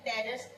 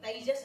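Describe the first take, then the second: First: The first vowel is a single flat vowel. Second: The first vowel glides from a to i. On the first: The speaker calls it wrong. "देखो तेजस बोलते ना कई लोग" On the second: The speaker calls it right. "तो तेजस बोलना चाहिए, पूरा आई की मात्रा लो।"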